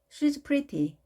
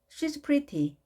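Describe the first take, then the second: First: The verb is contracted onto the pronoun. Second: The verb is contracted onto the pronoun.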